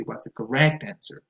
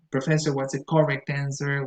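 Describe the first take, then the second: First: "correct" with a weak first vowel; stress on second syllable. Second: "correct" with a full, stressed first vowel; misplaced stress. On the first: Shown as a demonstration. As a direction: correct said cor-RECT. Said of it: "the stress goes on the second syllable". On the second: Retold or imitated. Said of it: "with beginner students, I have heard them say".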